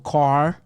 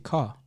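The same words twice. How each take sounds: First: The word ends with an American-style R sound. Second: The word ends without the American-style R sound. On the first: This is how Americans say it. "They go car" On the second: This is how the speaker's own group says it. "We say car"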